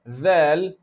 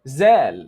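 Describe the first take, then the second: First: It begins with a soft 'th' sound. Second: It begins with a buzzing 'z' sound. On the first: The speaker calls it right. "Instead of" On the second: The speaker calls it wrong. "you say zal"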